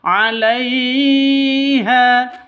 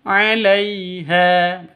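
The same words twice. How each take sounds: First: The middle syllable is jerked or stretched. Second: The middle syllable is smooth and short. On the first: The speaker calls it wrong. "itu salah" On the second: The speaker calls it right. "Yang betul"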